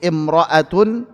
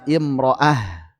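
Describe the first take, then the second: First: The word ends with a t sound, joined onward. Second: The word ends with an h sound, stopping. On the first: The reading continues without stopping. "ketika wasol dibaca dengan ta" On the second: The reading stops at this word. "ketika waqaf, maka dibaca dengan ha"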